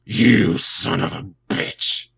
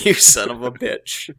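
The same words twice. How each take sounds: First: Slow, husky whispered sick voice. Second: Loud joking curse; hammed-up curse. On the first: Pretend. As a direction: croak it out like you're ill. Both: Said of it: "I have my sick voice".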